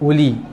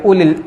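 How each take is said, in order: First: The word stops with a long final vowel. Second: The short final vowel runs into the next word. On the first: The reading pauses on this word. "Uli ni dia berhenti dua harakat" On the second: The reading continues into the next word. "Kalau sambung tak perlu baca harakat"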